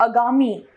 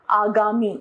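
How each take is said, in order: First: अगामी with a short opening a; wrong pronunciation. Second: Said in the usual way. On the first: Shown as a demonstration. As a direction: clip the first vowel of अगामी to 'uh'. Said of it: "अशुद्ध रूप". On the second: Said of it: "इसका शुद्ध है".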